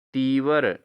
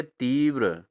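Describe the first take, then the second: First: तीव्र said as "tee-var"; wrong pronunciation. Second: तीव्र ending in joined "vr"; correct pronunciation. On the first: Teacher shows students the error, तीव्र as "teevar". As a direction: put a vowel between v and r in तीव्र. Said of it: "अशुद्ध है". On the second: Teacher gives students the answer, तीव्र with tight vr. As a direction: say तीव्र as "teev-ra". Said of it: "क्या होना चाहिए?". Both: Shown as a demonstration.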